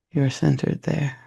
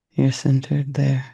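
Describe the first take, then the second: No difference in how they are said.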